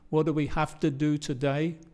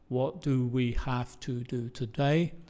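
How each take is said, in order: First: The words run together smoothly. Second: Each word is said separately. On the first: The speaker calls it right. "The words are joining together" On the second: The speaker calls it wrong.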